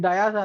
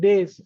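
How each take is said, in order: First: The word has two syllables, like dye-us. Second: The word has one syllable, like dace. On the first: The speaker calls it wrong. "దాన్ని డయాస్ అనకూడదు" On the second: The speaker calls it right. "డేస్ అన్నారు"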